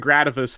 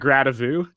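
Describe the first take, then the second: First: The name ends with a plain English -us sound. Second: The name ends with a mock French -u sound.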